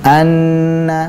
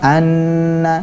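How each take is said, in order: First: The nasal sound is held long. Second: The same.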